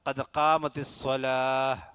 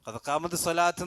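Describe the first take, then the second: First: The final word ends with an h sound. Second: The final word ends with a t sound. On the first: The speaker calls it right. "അതാണ് ഉച്ചാരണം" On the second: The speaker calls it wrong. "എന്നല്ല"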